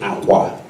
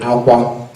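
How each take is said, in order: First: Said with the tone pattern meaning bed. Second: Said with the tone pattern meaning tears. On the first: The word means bed. "that would mean bed" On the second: The word means tears. "that would mean tears"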